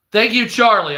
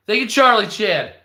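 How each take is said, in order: First: Loud, higher mock gratitude; sarcastic thanks. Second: Loud, higher mock gratitude with a jab; sarcastic thanks. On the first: To the realtor bragging about his spending, loud sarcastic thanks. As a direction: thank him loudly, dripping with sarcasm. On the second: To the realtor again, loud sarcastic thanks. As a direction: repeat the thanks, louder and more mocking.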